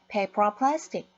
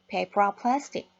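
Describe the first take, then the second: First: The words run together as one linked unit. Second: The same.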